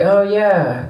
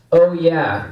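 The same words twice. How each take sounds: First: Said in the usual way. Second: Lightly voiced mascot catchphrase, drawn out; a hint of a big mascot's "oh yeah"; Kool-Aid Man. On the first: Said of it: "And you're like". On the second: Comic quoting a drink mascot's catchphrase, light impression. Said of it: "The Kool-Aid Man says that".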